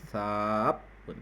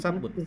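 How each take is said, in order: First: The first vowel is drawn out long. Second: The first vowel is short. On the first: The speaker calls it right. "ada matnya" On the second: The speaker calls it wrong. "Bukan sabun"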